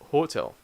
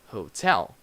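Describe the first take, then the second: First: The stress follows a Brazilian Portuguese pattern. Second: The stress follows the English pattern. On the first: The speaker calls it wrong. "we try to put the Brazilian pronunciation, the Brazilian stress in these words" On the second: The speaker calls it right. "In English, we have different stress. So we say"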